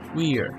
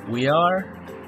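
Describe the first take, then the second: First: The words are merged into one syllable. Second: Two separate full words are said. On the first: "Forma contraída" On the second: "Forma larga"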